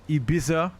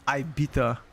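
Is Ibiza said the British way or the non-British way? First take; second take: non-British; British. First: It is said the non-British way. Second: It is said the British way.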